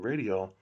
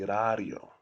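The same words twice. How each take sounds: First: It is said with English sounds. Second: It is said with Korean sounds. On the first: "instead of saying radio" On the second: "it would be radio"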